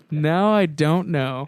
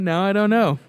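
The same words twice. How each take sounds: First: "don't know" drawn out slowly; slow, deliberate doubt. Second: Said in the usual way. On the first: Real, not acted. Co-host unsure about sarcasm, slowly drawing out "don't know". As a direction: stretch out "don't" and "know", pondering.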